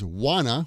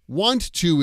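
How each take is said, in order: First: The words merge into a reduced wanna. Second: Both words are said fully and separately.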